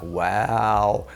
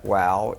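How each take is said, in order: First: The word is drawn out long. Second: The word is said short and clipped.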